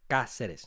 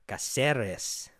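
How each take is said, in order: First: The 'er' syllable is not stressed. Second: The 'er' syllable carries the stress. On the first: The speaker calls it right. "it's really supposed to be sort of spoken fluently" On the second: The speaker calls it wrong. "I'm putting the emphasis on E R in Caceres"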